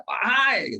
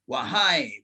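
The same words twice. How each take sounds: First: Wahai called out high and loud; a raised Wahai with a falling end; calling out. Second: Said in the usual way. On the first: Shown as a demonstration. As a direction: call Wahai like summoning a crowd. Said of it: "seruan yang sambil berteriak". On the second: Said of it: "wahai itu seruan yang sambil berteriak".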